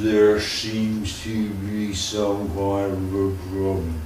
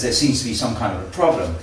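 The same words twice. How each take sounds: First: The sentence is spoken in a distorted voice. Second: The sentence is spoken in a normal voice. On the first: This is the message after being distorted in transit. "as it comes up here, it becomes" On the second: This is the message as it was first sent. "someone here says"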